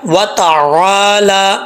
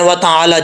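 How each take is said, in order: First: The vowel after the L is lengthened. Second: The vowel after the L is short. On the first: The speaker calls it right. "लाम को लंबा करके एक अलिफ की मिकदार" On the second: The speaker calls it wrong. "जो लोग स्टैंड जबर छोड़ देते हैं"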